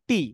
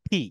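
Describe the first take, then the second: First: The t is plain and unaspirated. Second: The t is breathy and aspirated. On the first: The speaker calls it wrong. "Not টি" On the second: The speaker calls it right. "এটাকে বলতে কি টি"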